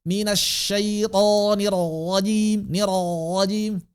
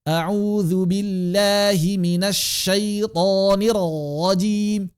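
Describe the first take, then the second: First: Slow, higher, throaty r in rajim; wrong ro reading. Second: Slow, sing-song, throaty r in rajim; wrong ro reading. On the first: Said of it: "cara baca begitu". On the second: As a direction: recite with the mistaken r. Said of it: "banyak yang cara baca begitu". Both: Shown as a demonstration. (bacaan ro salah)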